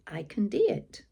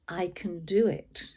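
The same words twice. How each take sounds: First: It is said in a Scottish-sounding accent. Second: It is said in a plain, ordinary accent. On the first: "sounding as if I'm doing a very, very poor impression of a Scottish person" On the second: "instead of using the positive message to myself"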